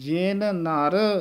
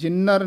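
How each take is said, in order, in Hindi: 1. दोनों शब्द साफ़ तौर पर अलग रखे गए हैं। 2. दोनों शब्द एक साथ जुड़े हुए हैं। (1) "ਨਖੇਰ ਕੇ ਪੜ੍ਹਨਾ ਹੈ" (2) "ਜਿੰਨਰ ਨਹੀਂ ਕਹਿ ਦੇਣਾ"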